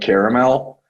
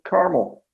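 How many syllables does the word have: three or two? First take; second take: three; two. First: The word is said with three syllables. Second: The word is said with two syllables. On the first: "the three syllable pronunciation of caramel" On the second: "other times when I'm just like caramel"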